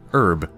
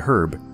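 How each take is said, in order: First: The h at the start is silent. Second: The h at the start is pronounced. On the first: This is the usual way to say it. "we normally say herb" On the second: Only some people say it this way. "some people say herb"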